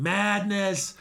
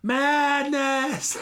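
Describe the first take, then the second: First: Raised, emphatic cry of disbelief; first cry of madness, building; stunned exclamation. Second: Much higher and louder, full-throated cry; second cry of madness, at full pitch; anguished shout. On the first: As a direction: call it out to the wreckage, stunned. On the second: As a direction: scream it at the ruins in horror. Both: Retold or imitated. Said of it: "he's looking over everything going".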